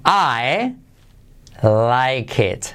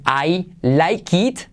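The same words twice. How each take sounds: First: "I like it" pausado, como "ae laik et". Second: "I like it" lento, con "it" como "iit"; pronunciación con i. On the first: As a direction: di "I like it" con e en "it". ("I like it" acabado en "et", descendente) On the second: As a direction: di "I like it" con i cerrada al final. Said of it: "No vas a decir". ("I like it" acabado en i larga, subiendo) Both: Shown as a demonstration.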